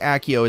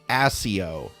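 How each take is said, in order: First: The first consonant is a k sound. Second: The first consonant is an s sound. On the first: The speaker calls it wrong. "it's not pronounced Accio" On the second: The speaker calls it right. "it's pronounced Asio"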